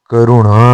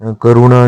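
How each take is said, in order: First: करुणा with held nasal ending; correct form. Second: करुणा said briefly; incorrect form. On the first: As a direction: draw out the णा of करुणा. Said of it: "होता है". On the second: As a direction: keep करुणा short and even. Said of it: "नहीं होता". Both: Shown as a demonstration.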